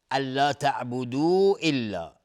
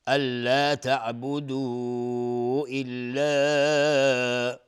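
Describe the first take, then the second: First: الا تعبدوا الا recited at a steadier pace, madd held only briefly; shorter madd. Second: الا تعبدوا الا with the vowels of الا stretched very long and slow; long madd. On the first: Teacher repeats the phrase with a shorter madd. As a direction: chant it again with a moderate madd. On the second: Teacher demonstrates the long madd to students, drawn out. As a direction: hold the madd on الا a long time, chanted. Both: Shown as a demonstration. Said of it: "مدش مد جایز منفصل".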